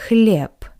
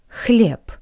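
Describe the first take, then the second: The two takes are said the same way.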